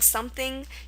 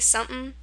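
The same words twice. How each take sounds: First: Every sound in the word is fully said. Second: A sound in the word is skipped over. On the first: "instead of saying something" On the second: "you say something. ... Kind of like you skip over it"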